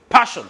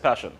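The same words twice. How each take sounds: First: The word is shouted loudly and forcefully. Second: The word is said quietly and flatly. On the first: "Did I ask you to shout?" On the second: "you said passion"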